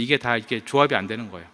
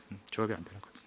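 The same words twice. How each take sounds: First: Said in the usual way. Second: 조합이 muttered much softer, under the breath; muttered aside. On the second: Shown as a demonstration. Preacher muttering to himself about the child's confusion, soft. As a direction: drop to a private mumble on 조합이 안 되는 거예요.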